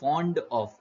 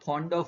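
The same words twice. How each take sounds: First: The f is made with lip and upper teeth. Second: The f is made with both lips together. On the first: The speaker calls it right. "પણ ફોન્ડ ઓફ એવું કહેવાય" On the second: The speaker calls it wrong. "નહીં"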